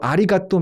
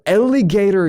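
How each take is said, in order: First: It is pronounced as Korean-style syllables, a-ri-ga-tto. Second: It is pronounced with English sounds.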